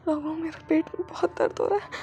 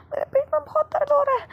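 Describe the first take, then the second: First: Said in the usual way. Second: High, pained whimpering complaint; pained plea. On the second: Acted. Wing telling his husband his stomach hurts, high and pained. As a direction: cry out about the pain, pitched up.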